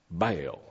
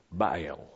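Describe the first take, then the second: First: "Baal" in a Southern accent, slurred into one syllable, BILE; a Southern drawl on "Baal", one syllable. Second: "Baal" in a Southern accent, split into two syllables, BY-ul; a Southern "Baal" stretched into two beats. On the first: Preacher jokes about saying Baal in a Southern accent. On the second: Preacher shows the congregation the two-syllable Southern Baal. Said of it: "two syllables in southern too". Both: Shown as a demonstration.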